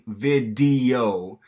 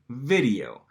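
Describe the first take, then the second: First: The middle consonant is a full, held D. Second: The middle consonant is a quick tongue flap. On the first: The speaker calls it wrong. "you're not saying video" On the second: The speaker calls it right. "You're saying video, ... that consonant sound in between the I and the O is a flap"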